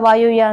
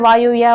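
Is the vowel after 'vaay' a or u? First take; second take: u; u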